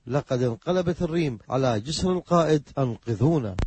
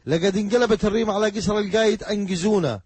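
First: The qaf sounds are deep back q sounds. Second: The qaf sounds are hard g sounds. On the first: "يعني" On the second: "فاتصل بأصدقاء له وقال"

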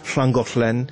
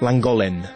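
First: The name begins with a hissing hl sound. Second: The name begins with a plain l sound. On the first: The speaker is local. The speaker calls it right. "вместо того, чтобы говорить" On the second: The speaker is not local. The speaker calls it wrong. "А англичане совсем не могут. Они все говорят"

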